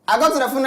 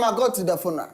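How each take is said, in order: First: The words are spoken very quickly. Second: The words are spoken slowly and normally. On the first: "Fast, please" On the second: "then slower, please. Speak like normal"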